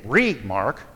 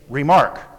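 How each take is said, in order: First: The stress is on the first syllable. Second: The stress is on the second syllable. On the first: The speaker calls it wrong. "We don't say re-mark" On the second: The speaker calls it right. "We say remark"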